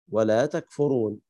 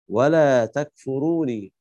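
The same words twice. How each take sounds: First: Said in the usual way. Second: تكفروني slow, ending on a long held ee; Ya'qub's added ya. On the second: Shown as a demonstration. Teacher reading it as Ya'qub does, تكفروني with long final ee. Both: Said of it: "اقرأها يعقوب".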